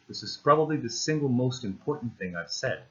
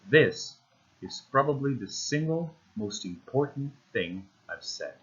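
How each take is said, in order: First: It is said at a normal pace. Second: It is said slowly, with pauses.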